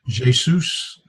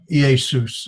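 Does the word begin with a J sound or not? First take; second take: J sound; no J. First: The word begins with a J sound. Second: The word begins without a J sound. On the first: "Some people make a J sound here" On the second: "I think, is probably correct"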